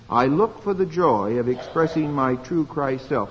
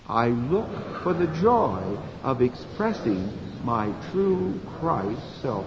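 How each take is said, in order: First: It is said at normal volume. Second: It is said softly.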